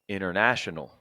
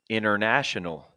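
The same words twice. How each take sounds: The two takes are said the same way.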